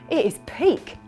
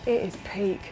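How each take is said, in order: First: The intonation sounds pleased and approving. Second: The intonation sounds displeased and disapproving. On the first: The thing is great. "you loved it" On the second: The thing is bad. "But if you hated it"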